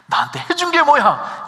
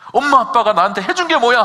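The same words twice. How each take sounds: First: Much higher, louder bratty retort; 게 in "해준 게 뭐야" stressed, high and loud; teen talking back. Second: Loud, higher defiant retort; 게 hit hard in "해준 게 뭐야", loud defiant teen; teen talking back. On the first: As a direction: throw it at the parent like a defiant kid. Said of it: "이렇게 얘기하면 얼마나 속이 상해". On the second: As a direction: snap back like a sulky teenager. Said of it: "부모님에게 막 대듭니다". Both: Retold or imitated.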